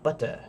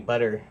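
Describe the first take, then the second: First: It is said in an imitated British accent. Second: It is said in an American accent. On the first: This is how the British listener might say it. "you might say butter. Of course, I'm I'm doing it badly" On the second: This is how the speaker's own group says it. "we'll say butter"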